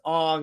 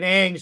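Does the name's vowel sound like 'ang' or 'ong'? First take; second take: ong; ang. First: The name's vowel sounds like 'ong'. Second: The name's vowel sounds like 'ang'.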